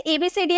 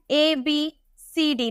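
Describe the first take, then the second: First: Said in the usual way. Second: ABCD drawn out slow and soft like a chant; slow recitation. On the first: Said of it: "बचपन से पढ़ते आ रहे हैं". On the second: Shown as a demonstration. Teacher recites the alphabet to students, slow and soft. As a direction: recite ABCD slowly as learnt in childhood.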